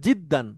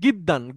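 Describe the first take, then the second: First: The word begins with a j sound. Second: The word begins with a hard g sound. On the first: This is the standard Arabic form. "খুবের শুদ্ধ আরবি হচ্ছে জিদ্দান" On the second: This is how an Egyptian speaker says it. "গয়েন দিয়ে"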